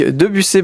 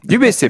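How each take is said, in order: First: Debussy with the first syllable as "De"; mispronounced surname. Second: Dubussy with the first syllable as "Du"; corrected surname. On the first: Host misnaming a guest, Debussy said with "De". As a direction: say Debussy with "De", not "Du". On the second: Host echoing the guest's correction, Dubussy said with "Du". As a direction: say Dubussy with "Du", not "De". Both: Real, not acted. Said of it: "Du, Dubussy".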